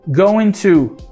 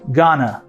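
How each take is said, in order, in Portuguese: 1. As duas palavras são ditas por inteiro e separadas. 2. As palavras se juntam numa forma reduzida só.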